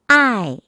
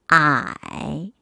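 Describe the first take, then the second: First: The pitch falls sharply from high to low. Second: The pitch dips low, then rises.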